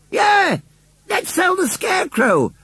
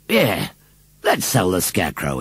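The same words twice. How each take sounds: First: Put-on very high childlike shout; clamouring children. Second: Measured echo at ordinary pitch; farmer's echo. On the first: Little children cheer on the sale, clamouring. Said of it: "clamoured all the little children". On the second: Farmer agrees with the crowd, echoing calmly. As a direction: echo the cry without shouting. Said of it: "he echoed". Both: A narrator's reading.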